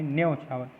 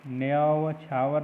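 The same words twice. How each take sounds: First: न्योछावर tight as "nyo-chhaavar"; correct pronunciation. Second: न्योछावर loosened to "nyaa-va-chhaavar"; teacher voicing न्योछावर with a split first syllable; wrong pronunciation. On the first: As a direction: keep the start of न्योछावर to one syllable. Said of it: "न्योछावर नहीं". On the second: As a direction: add an extra beat after nya in न्योछावर. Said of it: "नहीं". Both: Shown as a demonstration.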